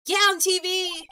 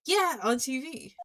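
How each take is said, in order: First: Higher and louder; exasperated girl. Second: Said in the usual way. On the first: Acted. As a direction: snap it back impatiently. Maya exasperated explaining.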